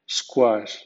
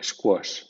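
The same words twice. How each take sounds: First: "squash" with an open ah, "skwahsh"; squash with "kwa". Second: "squash" with a rounded o, "skwosh"; squash with "kwo". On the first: Teacher giving first option for Q U A words, "squash" with open "kwa". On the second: Teacher giving second option for Q U A words, "squash" with rounded "kwo". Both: Shown as a demonstration. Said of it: "más consonante suena qua".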